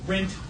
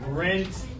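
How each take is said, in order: First: The ending is a plain T sound. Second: The ending is an extra 'id' syllable. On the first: The speaker calls it wrong. "It's not going to give you two T sounds. It's not going to be rent" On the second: The speaker calls it right. "But rent, id"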